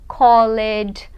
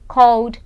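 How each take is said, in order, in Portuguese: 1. A terminação é pronunciada como uma sílaba extra. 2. A terminação é pronunciada só como o som de D. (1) "Muita gente fala assim, pronunciando o E, E D, mas não" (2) "você fala só o D, tira o E da pronúncia"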